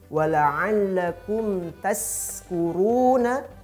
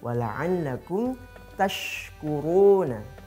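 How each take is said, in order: First: The second word has an s sound after ta. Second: The second word has an sh sound after ta. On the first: May you be drunk. The speaker calls it wrong. "kalau berganti shinnya menjadi sin" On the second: May you be grateful. The speaker calls it right. "tash itu harus betul penyebutannya"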